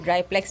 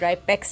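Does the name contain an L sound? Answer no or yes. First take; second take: yes; no. First: The name has an L sound after the P. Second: The name has no L sound after the P. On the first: The speaker calls it wrong. "ये ड्राईप्लेक्स नहीं है" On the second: The speaker calls it right. "ड्राईपेक्स है"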